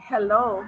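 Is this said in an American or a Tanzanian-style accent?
American. It is said in a plain American accent. "instead of them saying hello"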